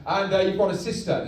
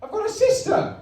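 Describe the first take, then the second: First: Lightly voiced villain dad, hesitant; Darth Vader. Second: Very high Geordie astonishment; Luke Skywalker. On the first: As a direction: break family news awkwardly in your own register. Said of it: "I'm your dad, Darth Vader". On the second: Acted. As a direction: squeal it as a stunned Geordie son. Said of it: "I made him Geordie".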